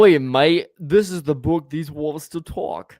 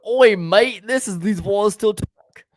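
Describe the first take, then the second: First: Put-on loud Australian accent, slow; Aussie voice repeated on request. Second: Put-on hammy Australian accent; Aussie voice, high and loud. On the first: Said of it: "always talk in an Australian accent". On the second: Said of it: "did you stutter in your accent".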